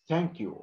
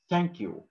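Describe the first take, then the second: No difference in how they are said.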